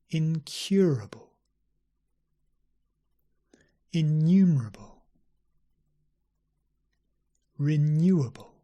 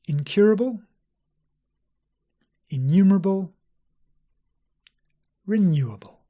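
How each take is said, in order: First: The words are spoken slowly. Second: The words are spoken at normal speed. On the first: "I'll read them slowly" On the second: "at normal speed again"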